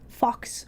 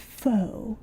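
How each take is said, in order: First: The word ends with a 'ks' sound. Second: The word ends on a vowel, without 'ks'. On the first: The speaker calls it wrong. "that's how I want to pronounce it" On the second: The speaker calls it right. "wait, no, hold on. It's faux"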